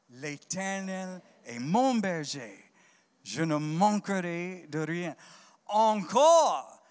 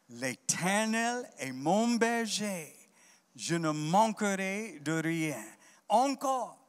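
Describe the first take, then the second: The two takes are said the same way.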